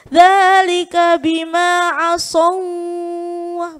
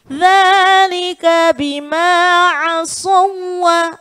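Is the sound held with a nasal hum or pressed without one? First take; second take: humming; pressed. First: The sound is held with a nasal hum. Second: The sound is pressed without any nasal hum. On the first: The speaker calls it wrong. "begitu bacanya. Jadi bukan mendengung" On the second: The speaker calls it right. "tetapi tekan"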